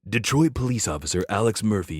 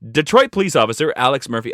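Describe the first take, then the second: First: It is said in a dramatic movie-trailer voice. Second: It is said in an ordinary speaking voice.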